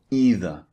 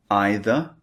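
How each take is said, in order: First: Either with an "ee" vowel, EE-ther; alternative pronunciation. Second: Either with a long "eye" vowel, EYE-ther; alternative pronunciation. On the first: Teacher showing learners the second option, either pronounced EE-ther. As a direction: say either as EE-ther, falling at the end. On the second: Teacher showing learners the first option, either pronounced EYE-ther. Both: Shown as a demonstration. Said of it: "These are the alternative".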